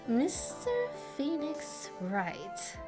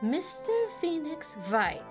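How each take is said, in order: First: It sounds plain, with no German accent. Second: It has a German accent, W said as V. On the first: The speaker calls it wrong. "That didn't sound a lick of German" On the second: The speaker calls it right. "Isn't the W supposed to sound like a V?"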